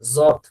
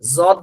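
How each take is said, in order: First: It begins with a buzzing z-like sound. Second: The same.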